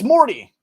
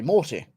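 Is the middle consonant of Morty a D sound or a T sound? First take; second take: D sound; T sound. First: The middle consonant sounds like a soft D. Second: The middle consonant is a clear T. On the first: This is how Americans say it. "I know Americans say D with a T" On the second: This is how the speaker's own people say it. "But we say Morty"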